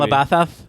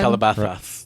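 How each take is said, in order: First: Both s sounds are lisped like th. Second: Only the middle s is lisped like th. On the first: The speaker calls it wrong. "That's how they say it" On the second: The speaker calls it right. "That's harder"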